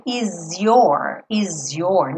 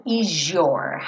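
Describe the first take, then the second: First: "is your" with a clear z sound before your; z linking. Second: "is your" with the s turned into a zh sound. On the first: Teacher shows the acceptable option. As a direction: say "is your" as iz your, also correct. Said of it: "eu poderia sim dizer". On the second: Teacher shows the common relaxed linking. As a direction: blend "is your" into izhor. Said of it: "esse S acabe ganhando um som de J". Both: Shown as a demonstration.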